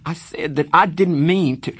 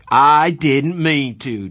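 First: Higher, louder frustrated protest; frustrated tears. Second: Slow, louder, higher mocking shout of I didn't mean to. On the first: Acted. Pony repeating himself to Darry, frustrated. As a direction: insist through rising tears. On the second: Darry mocking Pony's excuse, slow loud shout. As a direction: throw his words back at him. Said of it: "Darry shouted".

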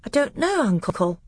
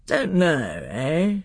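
First: Put-on high, small-boy voice; unsure little boy answering his uncle; pitched way up, a child's timid reply; Caspian. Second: Put-on gruff uncle echoing the child; a king's disapproving echo; Miraz. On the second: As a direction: throw the boy's words back, grown-up and challenging.

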